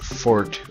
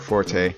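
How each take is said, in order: First: The name ends without a final vowel sound. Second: The name ends with a final vowel sound.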